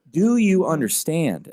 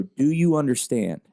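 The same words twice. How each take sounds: First: Higher, slow, pressing repeat of the question; insistent repeat. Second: Slow, firm check-in to a daughter; firm question. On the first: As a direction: lean in and press the question harder. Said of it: "I'll go". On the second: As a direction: ask it steadily, a touch slower. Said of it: "And I'll always go". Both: Retold or imitated.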